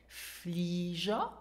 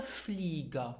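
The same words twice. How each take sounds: First: FLEE-zher, "Flieger" offered as a question; first pronunciation option. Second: "Flieger" with a hard g; FLEE-gher, g of "Flieger" as in go; second pronunciation option. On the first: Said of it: "How would you pronounce this word?". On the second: Teacher offering the other option, hard-g "Flieger". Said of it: "it is pronounced Flieger". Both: Shown as a demonstration.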